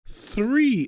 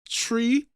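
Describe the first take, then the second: First: It starts with a th sound. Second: It starts with a plain t sound. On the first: The speaker calls it right. "you have to put your tongue in between your teeth" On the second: The speaker calls it wrong. "In the Caribbean, you don't put your tongue in between your teeth"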